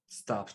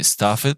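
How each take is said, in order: First: The ending is a plain t sound. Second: The ending is said as an extra syllable. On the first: The speaker calls it right. "but you say" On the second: The speaker calls it wrong. "So you don't say stuff it"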